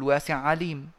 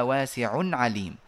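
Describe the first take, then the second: First: واسع عليم with the nunation dropped and the two ayn sounds merged; wrong merged reading. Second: واسع عليم said slowly, with the nunation of واسع kept before عليم; correct reading. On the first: Teacher showing the forbidden merged reading. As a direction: swallow the n of واسع and join it to عليم. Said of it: "لا نقول". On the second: Teacher giving the correct reading with nunation kept. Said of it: "وإنما". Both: Shown as a demonstration.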